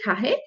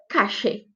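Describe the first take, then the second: First: The middle consonant is a soft R-like sound. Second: The middle consonant is an SH sound. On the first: This is how it is said in Argentina and Uruguay. "como se fosse um R, mas não tão forte" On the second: This is another way it is said in Argentina and Uruguay. "Como se fosse um X mesmo"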